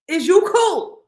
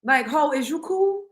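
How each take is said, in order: First: "Is you cool" pitched high and loud; incredulous repeat. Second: Said in the usual way. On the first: Real, not acted. Challenging the absent woman over her choice, loud incredulous "cool".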